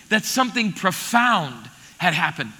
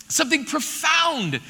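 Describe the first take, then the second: First: Said in the usual way. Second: Something profound, slow and weighty; slow stress on profound. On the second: Shown as a demonstration. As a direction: lean on profound.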